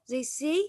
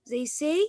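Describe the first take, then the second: The two takes are said the same way.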